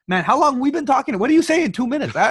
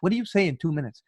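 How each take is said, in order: First: Much higher, louder disbelief; incredulous. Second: Said in the usual way. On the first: Retold or imitated. Asking how anyone fills two minutes, higher and louder in disbelief. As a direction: squawk it in mock disbelief.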